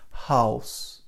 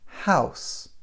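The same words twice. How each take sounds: First: The vowel differs from the one in cow. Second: The vowel matches the one in cow. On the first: The speaker calls it wrong. "I am not saying house" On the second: The speaker calls it right. "I'm saying house"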